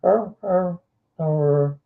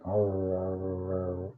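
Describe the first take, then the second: First: A daintier little dog munching. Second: Low, soft growling arr sounds. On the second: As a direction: growl it low like a dog gulping food. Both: Retold or imitated. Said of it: "they eat like".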